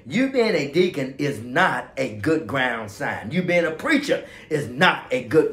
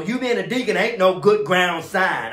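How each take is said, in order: First: Corrected, careful English. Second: Said in the usual way. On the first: Shown as a demonstration. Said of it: "Okay, let's say it this way". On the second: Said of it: "I know that's bad English".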